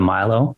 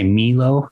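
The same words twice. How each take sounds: First: The first vowel sounds like 'eye'. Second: The first vowel sounds like 'ee'. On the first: The speaker calls it right. "instead of Milo" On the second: The speaker calls it wrong. "They say Milo"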